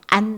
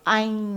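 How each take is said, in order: First: It is said with a southern Vietnamese accent. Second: It is said with a northern Vietnamese accent. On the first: The speaker is from the south. "안 하면 이거는 남부 지역인 거예요" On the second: The speaker is from the north. "아잉 하면은 이거는 북부 지역이고"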